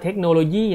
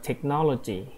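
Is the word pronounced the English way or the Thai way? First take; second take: Thai; English. First: The word is said with Thai loanword sounds. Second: The word is said with English sounds. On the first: The speaker calls it wrong. "ไม่ได้อ่านว่าเทคโนโลยีนะลูก" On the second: The speaker calls it right. "เขาอ่านว่า"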